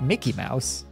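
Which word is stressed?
Mickey. The stress falls on the word Mickey. The speaker calls it wrong. "not Mickey Mouse. You don't emphasize the Mickey part"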